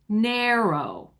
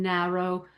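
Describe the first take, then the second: First: The first vowel is a long A. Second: The first vowel is a short A. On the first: The speaker calls it wrong. "We've turned it into a long A" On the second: The speaker calls it right. "I pronounced that A as a short A"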